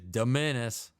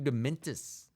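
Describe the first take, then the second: First: It sounds like menace, with no T. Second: A clear T sound is heard in it. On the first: The speaker calls it right. "It's a menace" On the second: The speaker calls it wrong. "I think I pronounced that wrong. I think I put a T in there"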